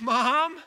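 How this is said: The call sounds urgent and alarmed. The water is starting to run over. "If the child says"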